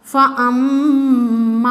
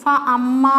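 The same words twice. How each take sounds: First: Sung, "ഫ അമ്മ" slow, with a long held m and short ending; humming doubled M. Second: "ഫ അമ്മ" with a short m and long final aa; unwanted long vowel. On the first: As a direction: hum on the m of "ഫ അമ്മ". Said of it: "ഷെദ്ദുള്ള മീമ് ഇവിടെ മണിക്കണം". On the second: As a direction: say "ഫ അമ്മ" without humming the m. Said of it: "എന്ന് ഓതണ്ട". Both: Shown as a demonstration.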